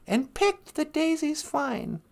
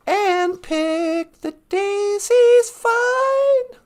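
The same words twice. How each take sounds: First: Said in the usual way. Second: Slow singing, higher pitched; sung, sung song line. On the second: Acted. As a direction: sing it out high and drawn-out. Quotes next song line by singing.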